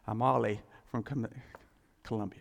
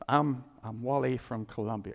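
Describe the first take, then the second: First: The name starts without a W sound. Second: The name starts with a clear W sound.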